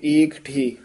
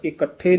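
First: ਏਕਠੇ with long first vowel and break before ਠੇ; said with a dash. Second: ਇਕੱਠੇ with short first vowel and doubled ਠ; wrong run-together form. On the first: Teacher showing the correct form, ਏਕਠੇ with a dash. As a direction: separate ਏਕ from ਠੇ slightly. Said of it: "dash ਦੇ ਕੇ". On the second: Teacher showing what not to say, ਇਕੱਠੇ run together. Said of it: "ਇਕੱਠੇ ਨਹੀਂ ਕਹਿਣਾ". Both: Shown as a demonstration.

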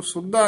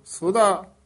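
First: ਸੁਦਾ with a tight doubled d, "sud-da"; short tight "sudda" for ਸੁਦਾ; hard doubled d. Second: ਸੁਦਾ with a light single d, "su-da"; loose, gentle d in ਸੁਦਾ; soft single d. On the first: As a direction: say ਸੁਦਾ clipped, leaning on a double d. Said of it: "ਇਸ ਨੂੰ ਸੁਦਾ ਨਹੀਂ ਕਹਿਣਾ". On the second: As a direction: say ਸੁਦਾ softly articulated, no doubling. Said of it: "ਸੁਦਾ ਪੋਲਾ ਬੋਲਣਾ ਹੈ". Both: Shown as a demonstration.

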